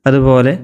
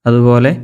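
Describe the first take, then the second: The two takes are said the same way.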